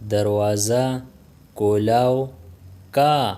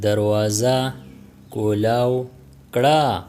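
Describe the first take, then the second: First: The final ending is shortened to ka. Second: The final ending is said in full as kra. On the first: This is how native speakers say it. "Native speakers speak" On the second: This is the full careful form. "कड़ा will become का"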